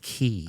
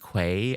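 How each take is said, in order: First: The word is pronounced like key. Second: The word is not pronounced like key. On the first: The speaker calls it right. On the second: The speaker calls it wrong.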